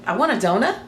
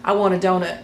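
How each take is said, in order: First: Statement words asked with rising tone on "donut"; questioning inflection. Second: Said in the usual way. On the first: Shown as a demonstration. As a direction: turn "I want a donut" into a question, "donut" swinging upward. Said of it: "the inflection of the tone". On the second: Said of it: "or they may say".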